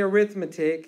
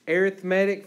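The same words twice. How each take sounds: First: The stress is on the second syllable. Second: The stress is on the third syllable. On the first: It is used as a noun. "you don't say arithmetic" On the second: It is used as an adjective. "arithmetic for an adjective"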